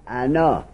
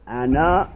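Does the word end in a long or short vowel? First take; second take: long; long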